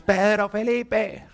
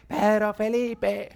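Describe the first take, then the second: First: Slow, high, stretched "Pedro Felipe" called from afar; angry mom call. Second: Long, drawn-out call of "Pedro Felipe", higher, from another room; mom calling out. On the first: Mother summons her son by both names when angry, slow and high. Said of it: "estoy en-, brava". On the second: Mother shouts her son's full name across the house, drawn out. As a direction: stretch "Pedro Felipe" like an angry mother summoning her son. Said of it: "desde allá me grita". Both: Retold or imitated.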